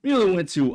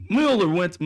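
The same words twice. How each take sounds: First: "Mueller" said as "MYOO-ler", with a clear y sound after the M; carefully fix it to "Mueller" with the y; corrected pronunciation. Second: "Mueller" said as "Muller", with no y sound after the M; "Mueller" slips out as "MOO-ler" before the fix; wrong pronunciation. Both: Real, not acted. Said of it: "I say Mueller".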